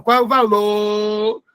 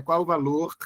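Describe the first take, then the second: First: "valor" ending on a long open O with no R; R dropped. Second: "valor" with its final R clearly sounded; R pronounced. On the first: Showing the class a regional habit, R dropped from "valor". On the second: Correcting the regional version for the class, final R of "valor" sounded. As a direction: close "valor" on an audible R. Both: Shown as a demonstration. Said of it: "Tem gente que não pronuncia o R".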